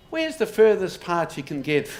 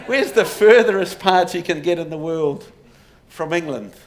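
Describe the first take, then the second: First: Lightly put-on Irish accent, a little louder; a half-hearted Irish brogue for the family legend; bad Irish accent. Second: Put-on louder second go at an Irish accent; Irish accent retry. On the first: Lecturer voicing Kerry rebels in a mild Irish accent. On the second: Lecturer retrying the Kerry rebels' line in a louder Irish accent. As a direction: push the Irish brogue, hammed-up and louder. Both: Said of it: "That's a terrible Irish accent".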